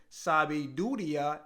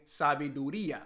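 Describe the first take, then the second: First: Sabiduría said the learner's mistaken way; mispronounced sabiduría. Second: Sabiduría with the stress on the í; corrected pronunciation. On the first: Retold or imitated. Learner retelling a mistake a Dominican friend corrected, mispronounced sabiduría. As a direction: misplace the stress in sabiduría, as a learner would. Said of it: "he helped me out because I was saying". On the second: Shown as a demonstration. Learner showing the friend's correction, sabiduría pronounced correctly. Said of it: "instead of saying sabiduría".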